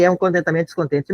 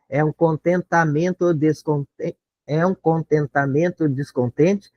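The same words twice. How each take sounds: First: Said in the usual way. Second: Slow, separating "é um" into two beats; slow metrical scan; scanning syllables. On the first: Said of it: "mata aqui". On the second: Shown as a demonstration. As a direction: spell out "é um contentamento descontente" beat by beat. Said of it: "Tem que separar o é um".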